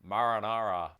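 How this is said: The word is said in a Rhode Island accent. "like marinara"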